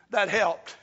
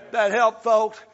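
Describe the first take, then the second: First: Said in the usual way. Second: Said louder with weight on helped; louder emphatic repeat. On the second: Real, not acted. Pastor repeating it to the congregation, louder and emphatic. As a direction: drive it home to the folks.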